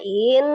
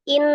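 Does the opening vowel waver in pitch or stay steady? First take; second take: wavering; steady. First: The opening vowel wavers, swinging in pitch. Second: The opening vowel goes straight into the consonant. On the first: The speaker calls it wrong. "tidak diayunkan" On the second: The speaker calls it right. "langsung in in gitu aja"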